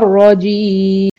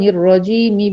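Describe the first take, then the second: First: The long vowel is stretched before stopping. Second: The long vowel is short and flows onward. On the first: The reciter stops on this word. "لو واقف على الرجيم وهسكن الميم" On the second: The reciter continues without stopping. "ما مدتش العارض للسكون في كلمة الرجيم"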